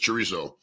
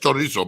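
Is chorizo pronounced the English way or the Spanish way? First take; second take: English; Spanish. First: It is pronounced with an English accent. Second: It is pronounced with a Spanish accent. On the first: "if you say it in English" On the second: "if you say it in Spanish"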